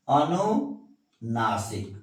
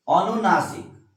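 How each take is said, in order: First: अनुनासिक drawn out slowly, syllable by syllable; slow dictation. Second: Said in the usual way. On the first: Shown as a demonstration. Teacher dictating अनुनासिक to students, slowly. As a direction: spell out अनुनासिक slowly for the class. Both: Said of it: "अनु क्या है?".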